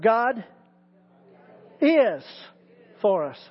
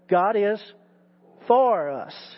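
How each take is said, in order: First: The stress is on the word is. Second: The stress is on the word for.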